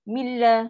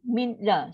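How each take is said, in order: First: The n merges fully into a doubled l. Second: The n is clearly sounded before the l. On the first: The speaker calls it right. "Dia akan bunyi macam ni" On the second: The speaker calls it wrong. "Min la adalah buat kerja dua kali"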